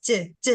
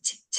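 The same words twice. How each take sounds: First: "J, j" sounded with the vocal cords; voiced j. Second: "J, j" as bare bursts without voice; voiceless sound. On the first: Learner checks with teacher, "J, j" voiced. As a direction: put voice into "J, j". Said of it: "it's with vocal cords". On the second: Learner tests teacher's claim, "J, j" without voice. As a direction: let out only air on "J, j", no vocal cords. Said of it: "say it without the voice". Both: Shown as a demonstration.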